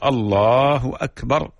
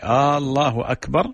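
First: It is said as a plain statement. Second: It is said so it sounds like a question. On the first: God is the greatest. The speaker calls it right. "هذا هو التكبير المشروع" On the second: It asks whether God is the greatest. The speaker calls it wrong. "أصبح استفهام تقريري أو إنكاري"

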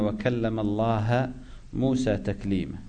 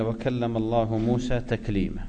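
First: The word for God ends with an 'a' vowel. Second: The word for God ends with a 'u' vowel. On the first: God is the one spoken to. The speaker calls it wrong. "فيجعلون الله مفعولا به فينصبونه" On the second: God is the one who spoke. The speaker calls it right. "أين الفاعل؟ الله"

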